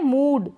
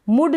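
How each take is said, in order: First: The vowel is long. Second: The vowel is short. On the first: The speaker calls it right. "लंबा ही हो रहा है" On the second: The speaker calls it wrong. "मुड नहीं बोल सकते"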